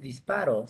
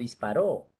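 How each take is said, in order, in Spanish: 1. El acento no está en la última sílaba. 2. El acento está en la última sílaba. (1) "En este contexto no es disparo" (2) "aguda termina en vocal, va con tilde"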